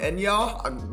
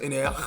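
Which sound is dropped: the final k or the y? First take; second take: final k; y. First: The final k sound is left out. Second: The y sound in the middle is left out. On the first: "or the Q is silent" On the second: "Maybe the Y is silent"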